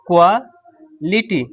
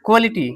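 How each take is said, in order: First: quality drawn out very slowly, syllable by syllable; teacher slowly spells out quality; slow demo. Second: Said in the usual way. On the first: Shown as a demonstration. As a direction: stretch quality slowly so students can follow each sound.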